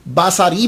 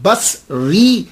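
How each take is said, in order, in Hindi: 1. स के बाद एक स्वर आता है, इसलिए तीन अक्षर होंगे। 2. स के बाद कोई स्वर नहीं आता, इसलिए दो अक्षर होंगे। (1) "अगर आपने स्वाद के ऊपर जबर पड़ा, बासारी बन गया" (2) "इसे प्रोनाउंस किया जाएगा"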